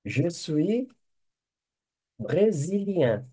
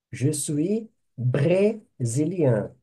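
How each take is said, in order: First: Said in the usual way. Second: Slow dictation. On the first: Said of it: "teacher dictating French phrase". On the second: Shown as a demonstration. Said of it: "teacher repeats phrase slowly".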